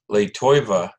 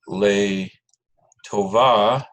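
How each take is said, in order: First: The second word has an 'oy' vowel. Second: The second word has a plain 'o' vowel. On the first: The speaker calls it wrong. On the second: The speaker calls it right.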